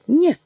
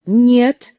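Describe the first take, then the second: First: A calmer, settled "Нет". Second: Sharp loud higher "Нет!"; cried out. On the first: Amanda repeating her refusal, now calmer. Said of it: "повторила Аманда более спокойно". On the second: Amanda stopping the maid, loud cry "Нет!". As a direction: shout "Нет!" in alarm. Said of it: "возопила Аманда". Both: A narrator's reading.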